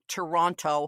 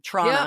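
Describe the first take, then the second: First: All three syllables are pronounced, including the final t. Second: It is squeezed into two syllables without a t. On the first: The speaker calls it wrong. "we don't say Toronto like Toronto" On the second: The speaker calls it right. "T R A W N N A"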